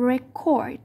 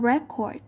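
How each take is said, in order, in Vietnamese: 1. Trọng âm nằm ở âm tiết thứ hai. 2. Trọng âm nằm ở âm tiết thứ nhất. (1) "Verb are usually stressed on the second syllables" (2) "thường sẽ đặt trọng âm vào âm thứ nhất"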